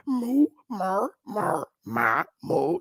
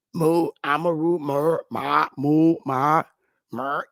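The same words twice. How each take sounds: First: Mock the vowels sliding: Moo, mer, ma; vowel shifting mockery. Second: Again cycle Moo, mer, ma, moo lightly; vowel shifting mockery. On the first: Streamer to chat, mocking the shifting vowels in moo. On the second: Streamer to chat, mock-sounding out moo variants. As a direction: run through moo, ma, mer flatly. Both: Shown as a demonstration. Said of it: "Changing vowel sounds and syllables around".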